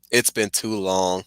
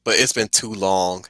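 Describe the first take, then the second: First: Slower and softer, a rueful repeat; slow wistful echo. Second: Said in the usual way. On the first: Shown as a demonstration. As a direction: let it trail off, regretful. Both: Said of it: "I could do LeVar's".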